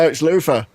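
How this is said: The th is said as f, London style.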